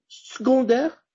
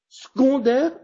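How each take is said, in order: First: The first-syllable e is dropped. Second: The same.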